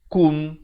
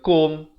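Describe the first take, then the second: First: The vowel is a rounded u sound. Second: The vowel is an open o sound. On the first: The speaker calls it right. "baca K U M" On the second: The speaker calls it wrong. "Jangan baca K O M"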